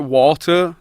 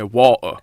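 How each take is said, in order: First: The T in the middle is clearly pronounced. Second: The T in the middle is dropped. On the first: It is said so Americans understand. "I say water, but I pronounce the T" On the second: It is how locals from Bradford say it. "if you're from Bradford, you say water. ... you don't even say the T"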